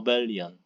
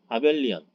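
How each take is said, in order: First: The first vowel is a reduced 'uh' sound. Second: The first vowel is an open 'ah' sound. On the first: "아는 아닌 것 같아요. 어인 것 같아요" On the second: "우리는 보통 아벨 이렇게"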